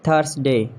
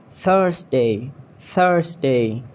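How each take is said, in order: First: "Thursday" with a plain T at the start; mispronounced Thursday. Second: "Thursday" opening on TH; tongue-tip TH starts "Thursday"; TH sound. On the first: Acted. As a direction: say "Thursday" as TURS-day. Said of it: "you have to correct me". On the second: Shown as a demonstration. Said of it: "make T H sound like this".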